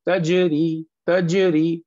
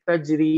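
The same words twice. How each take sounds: First: Strong bounced j in तजरी, like "taje-ri"; short echo after j in तजरी; qalqalah bounce. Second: तजरी with a soft j and no bounce; normal soft. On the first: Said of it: "इसे हम पढ़ें". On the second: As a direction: run the j of तजरी gently into ri. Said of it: "ऐसे normal soft नहीं पढ़ेंगे". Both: Shown as a demonstration.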